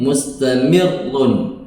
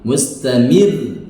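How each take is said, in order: First: The word ends with a vowel and final n. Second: The word ends on a light, stopped r. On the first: The reader continues without pausing. "mustamirrun ketika berharokat begini" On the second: The reader is pausing at this word. "ketika di waqaf posisinya menjadi tarqiq"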